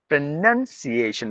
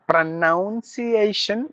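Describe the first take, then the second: First: The second syllable sounds like 'nun'. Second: The second syllable sounds like 'noun'. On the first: The speaker calls it right. "it is pronun, not noun" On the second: The speaker calls it wrong.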